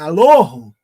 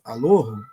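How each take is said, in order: First: The sound is pushed outward, forward out of mouth. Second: The sound is drawn inward, back toward the throat. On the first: It refers to the true God. "para fora" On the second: It refers to any god. "assim para dentro"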